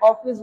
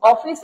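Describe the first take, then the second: First: অফিস with a short open "aw", "awfis"; direct pronunciation. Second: অফিস with a long drawn-out "oh", like "ohh-fis"; wrong pronunciation. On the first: Teacher showing the accepted form, short open "awfis" for অফিস. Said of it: "এটা অফিস বলতেছে direct". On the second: Teacher showing what is not said, drawn-out "oh-fis" for অফিস. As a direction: stretch the first vowel of অফিস into a round O. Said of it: "এটা অফিস বলতেছে না". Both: Shown as a demonstration.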